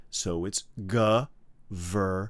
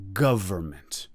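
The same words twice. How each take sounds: First: "government" said slowly as GUV-er-ment with no N sound; pronunciation demo. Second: "Government" repeated as GUV-er-ment with the N dropped; pronunciation demo. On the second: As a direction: say "Government" once more as guv-er-ment, stress first. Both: Shown as a demonstration. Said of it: "you do not have to say the N".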